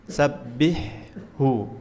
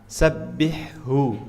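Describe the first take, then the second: No difference in how they are said.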